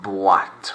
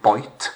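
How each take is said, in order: First: Boîte said bwat, oi as wa; French pronunciation. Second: Put-on boîte said like English boyt; wrong English reading. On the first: Teacher corrects pupils, proper French Boîte. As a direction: give Boîte the French wa sound. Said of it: "You've got to French it up". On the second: Teacher shows pupils' common mistake, anglicised boîte. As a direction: mispronounce boîte with an oy sound. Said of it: "common errors that you might make". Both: Shown as a demonstration.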